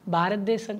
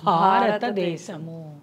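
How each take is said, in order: First: The word ends in a bare m sound. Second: The word ends with a full mu syllable. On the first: The speaker calls it wrong. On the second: The speaker calls it right.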